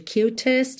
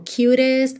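First: The middle t is a crisp, clear t. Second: The middle t is a soft flap, like d. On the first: "ao invés de cutest" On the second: "quando T e D tem aquele rararã como cutest"

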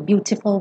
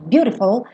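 First: The t is a clear, crisp t sound. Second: The t is a quick American flap.

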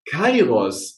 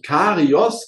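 First: The name starts with 'kai', then 'ros'. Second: The name starts with 'ka', then 'ri-os'. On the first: The speaker calls it right. "und es heißt" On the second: The speaker calls it wrong. "habe ich falsch ausgesprochen. Ich habe, glaube ich, Karios gesagt"

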